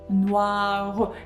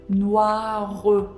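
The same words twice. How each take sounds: First: A short vowel follows the final r sound. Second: The same.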